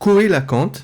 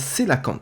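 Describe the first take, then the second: First: The name begins with a 'ko' sound. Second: The name begins with a 'say' sound. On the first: The speaker calls it wrong. "je dis Coelacant parce que je lis le texte euh, bêtement" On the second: The speaker calls it right. "alors qu'en fait ça se prononce un Célacant"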